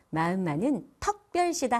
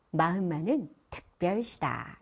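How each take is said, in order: First: 특별시다 said as 특벌시다 with 어 sound; the mistake: 특별시다 with 어; wrong 어 for 의. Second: 특별시다 with a clean 으 in 특, not 어; correct 으 vowel. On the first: Teacher shows the wrong 특별시다 with 어. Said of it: "아니고요". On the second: Teacher models the right 특별시다 with 으. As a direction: say 특별시다 properly with 으. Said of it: "이렇게 하시면 좋습니다". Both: Shown as a demonstration.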